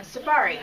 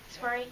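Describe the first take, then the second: First: Said in the usual way. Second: Safari? asked softly, doubting the word; unsure question. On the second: Shown as a demonstration. Unsure of the word, soft doubting question. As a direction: question whether safari is even right.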